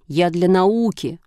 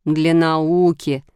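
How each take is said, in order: First: Slow, mildly huffy self-justification; offended. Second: Very slow, teasing drawl; wry mocking echo. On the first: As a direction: stretch "науки" with a touch of hurt dignity. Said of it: "обиделся Шишкин". (обиженно оправдываясь) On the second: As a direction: echo it with a smirk, stretched right out. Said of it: "усмехнулась мама". (с усмешкой, насмешливо растягивая слова) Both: A narrator's reading.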